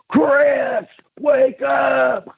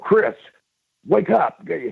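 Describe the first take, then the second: First: It is screamed loudly. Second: It is said at a normal volume.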